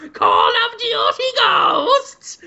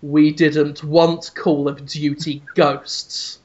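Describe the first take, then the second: First: Very high, slow screech; Miyamoto. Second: Low, slow, deliberate pronouncement; Reggie. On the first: Host voices a figure taunting his netted captive, drawn-out screech. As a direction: drag out a demented high-pitched cry. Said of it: "Miyamoto's just going". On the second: Host voices an executive answering the captive, low slow menace. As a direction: say it ominously, unhurried and low. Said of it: "just looks at him and says". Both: Acted.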